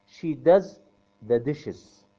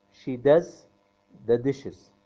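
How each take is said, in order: Both takes have the same delivery.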